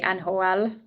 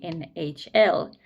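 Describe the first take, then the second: First: The letters are said with Finnish letter names. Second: The letters are said with English letter names.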